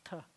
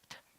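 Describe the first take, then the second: First: The t is made with a broad, heavy tongue contact. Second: The t is made lightly with the tongue tip. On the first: "the tav is more of a splat the your the tongue on the top of your the roof of your mouth" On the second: "the tet is more like a dainty t"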